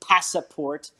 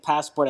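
First: The word is said with three syllables. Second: The word is said with two syllables. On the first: The speaker calls it wrong. "I did say passaport" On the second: The speaker calls it right. "instead of saying passport"

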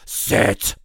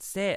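First: It is said in a growling metal voice. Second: It is said in a normal voice.

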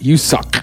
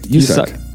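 First: Each syllable is articulated with exaggerated care. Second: The syllables are said in a relaxed, plain way. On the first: The speaker calls it wrong. "you're over enunciating the. It's because you're going" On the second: The speaker calls it right. "Just say Woo-suk"

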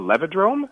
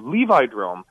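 First: The first syllable sounds like the start of levitate. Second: The first syllable sounds like the name Levi. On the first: The word follows the pattern of a familiar word. "Maybe it'd be more like levitate, a levidrome" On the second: The word is named after its inventor. "we should name it after me. It should be a Levidrome"

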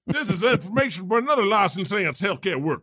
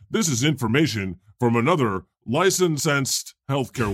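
First: It is read in an exaggerated Southern accent. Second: It is read in a plain, unaccented voice. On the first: "I will always go to that Southern accent" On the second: "you notice I didn't read that in any special voice"

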